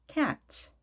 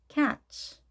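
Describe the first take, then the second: Both takes have the same delivery.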